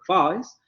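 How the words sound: Cockney accent, with a very open first vowel. "van a decir face"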